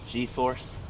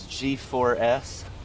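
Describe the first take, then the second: First: It is said quickly, run together as one word. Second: It is said slowly, letter by letter.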